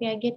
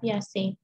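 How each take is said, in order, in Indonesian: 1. Nama itu dibaca sesuai tulisannya. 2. Nama itu diucapkan dengan bunyi s, Piasetti. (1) "tapi bukan Piaget ya" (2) "bacanya adalah Piasetti"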